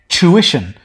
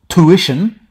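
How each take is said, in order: First: It is said with an Australian accent. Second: It is said with an American accent. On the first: "in Australian English" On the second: "in American English"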